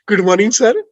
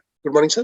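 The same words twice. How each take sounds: First: The greeting sounds artificially sweet and smiling. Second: The greeting sounds plain and matter-of-fact.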